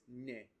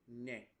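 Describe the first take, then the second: First: The word ends with a mid 'e' vowel. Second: The same.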